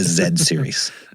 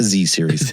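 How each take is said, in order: First: The letter is pronounced zed. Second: The letter is pronounced zee. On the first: The speaker calls it right. "Better Zed than dead" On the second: The speaker calls it wrong. "not the Z series"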